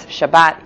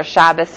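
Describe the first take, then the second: First: "Shabbat" stressed on the last syllable, ending in T; Israeli pronunciation. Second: "Shabbos" stressed on the first syllable, ending in S; yeshivish pronunciation. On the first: Teacher explaining the letter that flips, Israeli pronunciation. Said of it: "The Israeli accent will have a T". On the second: Teacher explaining the letter that flips, yeshivish pronunciation. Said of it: "The yeshivish accent will have an S". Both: Shown as a demonstration.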